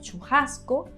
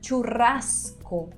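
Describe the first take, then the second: First: The R is barely trilled and the S is breathy. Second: The R is strongly trilled and the S is full. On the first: "como que una S inhalada y la pronunciación de la R, que es muy poco, que vibra muy poco" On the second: "de la R vibrando muchísimo y la pronunciación de la S"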